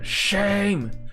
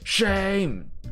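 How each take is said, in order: First: The word is said with a rough, gritty voice. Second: The same.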